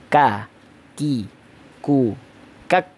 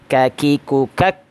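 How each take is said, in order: First: The syllables are said separately with pauses between. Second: The syllables are joined together in one breath.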